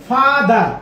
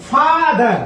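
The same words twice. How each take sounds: The two takes are said the same way.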